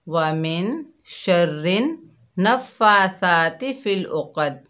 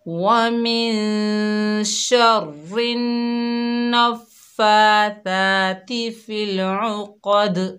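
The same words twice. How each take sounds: First: The q is light and the final d is flat. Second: The q is heavy and the final d bounces. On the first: The speaker calls it wrong. "इस तरह करके पढ़ती हैं, ... क़ाफ को भी मोटा नहीं पढ़ा हमने और दाल पर कलकला भी नहीं किया।" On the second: The speaker calls it right. "तो हम इसको सही कैसे पढ़ेंगे?"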